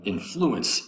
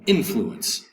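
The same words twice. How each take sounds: First: "influence" slowly, stressed on FLU; second-syllable stress. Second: "influence" slowly, stressed on IN; first-syllable stress. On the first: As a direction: make it in-FLU-ence, leaning on the middle of "influence". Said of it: "The second syllable has the accent". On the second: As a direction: lean on the opening IN of "influence". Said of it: "accent over the first". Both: Shown as a demonstration.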